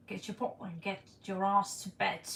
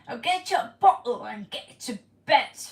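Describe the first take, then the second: First: Said in the usual way. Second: Loud, hammed-up British mum ordering a child to bed; British accent, bark it out like a strict nanny; British accent attempt. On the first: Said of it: "Was that good or not?". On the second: Viewer asks for a British accent, a loud British scolding. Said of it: "Can you do more British accent".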